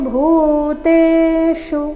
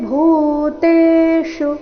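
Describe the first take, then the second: The two takes are said the same way.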